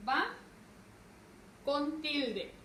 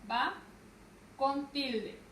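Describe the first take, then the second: No difference in how they are said.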